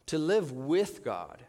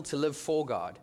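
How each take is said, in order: First: "with" stressed and drawn out, slowly; slow right down and lean on "with". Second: "for" stressed in full, not reduced. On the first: Contrasts living with and for God. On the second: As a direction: lean on "for" to set up a contrast. Contrasts living for and with God. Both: Shown as a demonstration.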